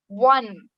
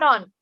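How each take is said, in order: First: It is said with a w sound, like 'wun'. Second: It is said like 'on', without a w sound. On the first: The speaker calls it right. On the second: The speaker calls it wrong.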